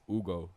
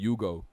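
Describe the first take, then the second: First: The name starts directly with a vowel. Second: The name starts with a 'y' sound. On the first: The speaker calls it right. "how to say my name right" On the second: The speaker calls it wrong. "people were saying my name wrong"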